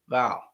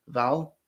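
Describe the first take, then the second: First: "vowel" drawled open, Southern style. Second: "vowel" closed off quickly, British style. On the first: Coach contrasting accents, "vowel" in a Southern drawl. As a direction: take longer to close off "vowel". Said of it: "takes longer to actually close off". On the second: Coach contrasting accents, "vowel" closed off short. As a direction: close the sound of "vowel" early. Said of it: "you're closing the vowel". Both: Shown as a demonstration.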